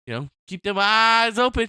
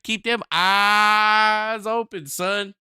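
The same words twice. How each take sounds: First: Said in the usual way. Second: Slow stern advice. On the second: Acted. Slow drawn-out repeat.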